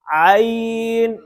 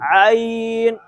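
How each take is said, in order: First: It begins with a tight sound from mid-throat. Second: It begins with a tight sound from mid-throat.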